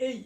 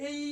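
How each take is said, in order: First: "এই" short, with a light i; light glide. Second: "এই" with the ending drawn out fully; overdone glide. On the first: Teacher showing the proper way, light glide. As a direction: say "এই" briefly, barely closing on i. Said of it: "হালকা উচ্চারণ করবেন". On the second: Teacher showing what is not needed, overdone glide. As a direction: stretch "এই" into a long i. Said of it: "এরকম করার দরকার নেই". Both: Shown as a demonstration.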